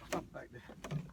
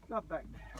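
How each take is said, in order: First: Whispered under the breath, low; whispered aside. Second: Said in the usual way. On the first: Real, not acted. Angler quietly tells himself where to drop, whispered. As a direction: breathe the words to yourself. Mutters instruction to himself, repeated.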